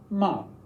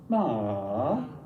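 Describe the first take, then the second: First: The pitch falls sharply from high to low. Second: The pitch dips low then comes back up. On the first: "a falling tone" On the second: "a dipping tone"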